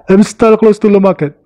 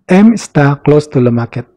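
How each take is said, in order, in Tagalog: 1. Kaswal ang pagkakasabi, pinaikli ang mga anyo ng salita. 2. Maingat ang pagkakasabi, buo ang mga anyo ng salita. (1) "in their accent, kapag narinig mo sila, ganito nila isasabihin" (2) "Pero for formal, ito yon yung nasa taas. Ulitin natin ha"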